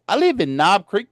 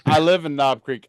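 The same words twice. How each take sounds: First: It is said in an exaggerated country accent. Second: It is said in his ordinary accent.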